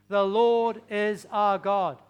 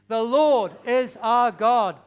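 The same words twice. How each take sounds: First: It is said at normal volume. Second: It is said very loudly.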